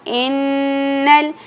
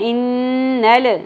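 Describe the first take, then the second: First: The L sound is held still without bounce. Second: The L sound ends with an echoing bounce. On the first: The speaker calls it right. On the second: The speaker calls it wrong.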